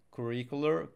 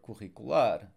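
First: Said in the usual way. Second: Curricular in Portuguese, stressed on final LAR; stress on last syllable. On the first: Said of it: "here we have the A R on both sides". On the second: Shown as a demonstration. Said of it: "We stress the last syllable".

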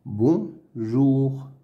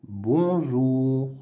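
First: "Bonjour" as "bon", pause, "jour"; syllable by syllable. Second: Said in the usual way. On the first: Shown as a demonstration. Teacher sounding out words to read, "Bonjour" in two pieces. Reading drill, split then blended.

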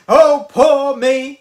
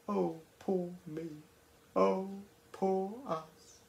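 First: Slow, loud, wailing oh poor me; mock self-pity. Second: Soft, quiet mock oh poor me; mock pity party. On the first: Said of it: "he goes to have a little pity party". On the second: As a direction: lightly mimic self-pity, hushed. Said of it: "a little pity party where they go".

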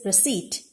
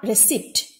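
First: "receipt" with the P silent; correct pronunciation. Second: "receipt" with the P sounded; wrong pronunciation. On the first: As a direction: end "receipt" on a plain t, re-seet. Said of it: "it is receipt". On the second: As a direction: voice the silent P in "receipt", re-seept. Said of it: "not receipt". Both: Shown as a demonstration.

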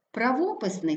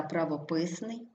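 First: ПраВОписний, stressed on ВО; stress on second syllable. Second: ПравоПИСний, stressed on ПИС; stress on third syllable. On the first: Teacher showing double stress, stress on ВО. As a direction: hit ВО in правописний. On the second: Teacher showing double stress, stress on ПИС. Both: Shown as a demonstration. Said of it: "слова із подвійним наголосом".

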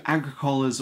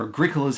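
First: Agricola's as AG-ri-COH-las; first pronunciation. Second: Agricola's as a-GRIC-o-las; alternative pronunciation. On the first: Offering viewers one way to say the game, Agricola's as AG-ri-COH-las. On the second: Offering viewers the other way to say the game, Agricola's as a-GRIC-o-las. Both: Shown as a demonstration. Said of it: "however you want to say it".

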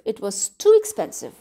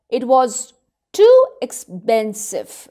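First: Said in the usual way. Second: Slow, weary, a little louder; old bootmaker's sad reply. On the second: A narrator's reading. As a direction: drag each word like a tired old craftsman. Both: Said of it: "He answered quietly".

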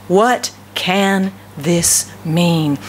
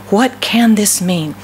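First: Very slow, word by word, lower; perplexed wonder. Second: Slow, puzzled question in one connected phrase; perplexed repeat. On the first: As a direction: stretch out each word in baffled wonder. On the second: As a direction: ask it slowly, joined up, mildly amazed. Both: Acted. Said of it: "stood there amazed and perplexed".

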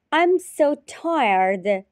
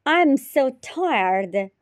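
Both takes have the same delivery.

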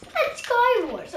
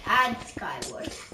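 First: High, loud repeated "And Skywars"; loud shout. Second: Said in the usual way. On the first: Shown as a demonstration. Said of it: "repeated louder higher". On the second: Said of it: "repeated differently".

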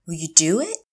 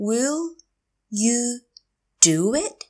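First: Said in the usual way. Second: Will, you, do it, with long gaps; slow teacher model of "Will you do it"; word by word. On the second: Shown as a demonstration. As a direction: pause after "Will" and after "you". Teacher repeats phrase word by word.

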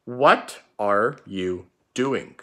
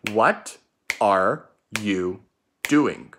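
First: Slow dictation, each word drawn out. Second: Slow, word by word choral repeat. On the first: Teacher dictating the first sentence slowly to pupils. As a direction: read it slowly for the class to copy. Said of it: "The first sentence is going to be". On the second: Teacher leading pupils to repeat the sentence slowly. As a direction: lead the class through it slowly. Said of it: "Get ready". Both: Shown as a demonstration.

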